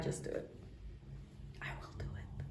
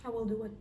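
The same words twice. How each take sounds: First: Breathy whisper. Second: Said in the usual way. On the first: Acted. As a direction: whisper it like a secret. Whispered resolve after laugh.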